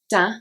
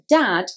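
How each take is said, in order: First: The final d sound is dropped. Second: The final d sound is pronounced.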